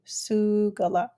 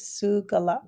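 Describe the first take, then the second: First: Sugala said slowly, each syllable su-ga-la drawn out clearly; teacher's slow model of Sugala; slow repeat. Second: Said in the usual way. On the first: Shown as a demonstration. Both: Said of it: "our long vowel sound is a borrowed word".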